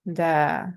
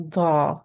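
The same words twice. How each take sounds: First: "da" with a light D and long open vowel; thin D sound. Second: "da" with a thick, heavy D; heavy D sound. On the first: Teacher repeats the comparison for learners, thin D. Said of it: "thin sounding D sound". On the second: Teacher repeats the comparison for learners, heavy D. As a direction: raise the tongue back on "da" for heaviness. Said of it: "the heavy D sound". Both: Shown as a demonstration.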